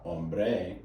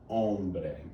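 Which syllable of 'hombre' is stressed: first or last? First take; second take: last; first. First: The stress is on the last syllable. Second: The stress is on the first syllable. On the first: The speaker calls it wrong. "It's not hombre" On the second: The speaker calls it right. "it's hombre. Second to last syllable"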